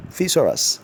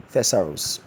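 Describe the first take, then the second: First: Thesaurus said thi-SOR-us, higher; correct pronunciation. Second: Thesaurus said THES-uh-rus, stress first; wrong pronunciation. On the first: Teacher giving the right form against the wrong. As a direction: model Thesaurus with SOR stressed. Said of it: "The correct rendition of that word". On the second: Teacher quoting the error. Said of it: "Thesaurus is wrong". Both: Shown as a demonstration.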